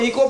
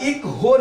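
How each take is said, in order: First: The word has no h sound. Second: The word has an h sound before o. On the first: The speaker calls it right. "अब तुमको इको पढ़ना है" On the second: The speaker calls it wrong. "इक हो नहीं पढ़ना है"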